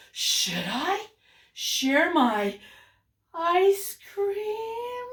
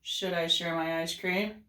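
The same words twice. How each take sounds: First: "Should I... share my... ice cream?" broken into slow chunks, CREAM held high; hesitant asking, pausing after "I" and "my", pitch climbing on "ice cream"; torn question. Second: Said in the usual way. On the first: Shown as a demonstration. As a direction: wonder it aloud slowly, "ice cream" lifted high as a question. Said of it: "he's asking for help". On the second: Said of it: "it's not".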